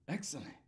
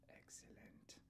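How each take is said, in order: First: It is said in a silly Wayne's World voice. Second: It is said in an evil Mr Burns voice.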